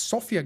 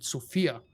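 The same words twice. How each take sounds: First: Sofia with the stress on SO; stress on first syllable. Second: Sofia with the stress moved to FI; mispronounced Sofia. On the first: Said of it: "from folks pronouncing it Sofia". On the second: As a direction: say Sofia as so-FI-a, middle syllable stressed. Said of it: "folks pronouncing it Sofia". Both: Shown as a demonstration.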